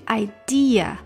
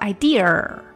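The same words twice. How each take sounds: First: The word ends without an r sound. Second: The word ends with an added r sound. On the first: The speaker calls it right. "注意这个idea 没有r" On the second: The speaker calls it wrong. "所以不能说idea，不能r"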